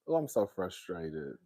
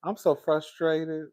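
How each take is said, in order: First: Much lower, much softer, groaned out; groaning frustration. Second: Slow, softer exasperated complaint; frustrated. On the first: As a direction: sink into a defeated groan. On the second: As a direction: drag the words out in weary frustration. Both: Real, not acted.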